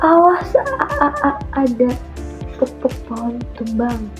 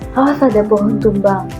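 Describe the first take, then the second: First: The phrase is broken up with repeated sounds. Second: The phrase is spoken smoothly without breaks. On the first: "mengucapkannya secara terputus-putus gitu atau berulang-ulang" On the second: "orang yang mengatakan misal"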